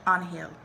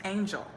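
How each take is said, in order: First: "Angel" said the Spanish way, AHN-hel; Spanish pronunciation. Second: Said in the usual way. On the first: A narrator's reading. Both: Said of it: "then I said in Spanish".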